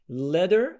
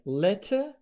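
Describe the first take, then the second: First: The middle t is a soft d sound. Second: The middle t is a clear t sound. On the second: "letter British"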